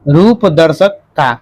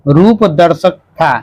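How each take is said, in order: The two takes are said the same way.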